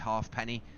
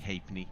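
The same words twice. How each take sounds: First: The word is said fully as 'half-penny'. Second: The word is said reduced, like 'hape-nee'. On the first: The speaker calls it wrong. "I've a couple of guys flying in and out on YouTube call it Halfpenny" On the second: The speaker calls it right. "but it's actually Halfpenny"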